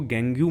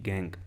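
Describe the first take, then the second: First: The word ends with an added 'yoo' sound. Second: The word ends cleanly on the 'ng' sound. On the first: The speaker calls it wrong. "इसको गैंग्यू मत बोलना" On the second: The speaker calls it right. "प्रोनाउंसिएशन में इसकी सिर्फ कहां तक आएगी"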